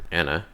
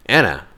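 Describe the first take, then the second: First: Said in the usual way. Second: Sharp alarmed shout of a name; calling out. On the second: Acted. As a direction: yell the name to stop her. Calling out a warning.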